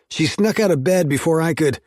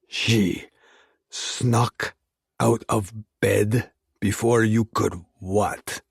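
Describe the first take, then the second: First: Raised voice, words forced out fast; angry. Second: Each word bitten off, slow and separated; biting out each word. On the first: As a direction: snap it out in heated frustration. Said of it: "I growled between clenched teeth". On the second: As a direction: clip every word with cold menace. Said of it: "He bit out each word". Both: Acted.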